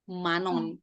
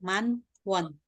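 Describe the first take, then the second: First: The w sound is dropped, linking into manon. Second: The w sound of won is clearly pronounced. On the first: The speaker calls it right. "Mereka bacanya manon" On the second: The speaker calls it wrong. "kalau bilang man won, orang Korea nggak akan ngerti"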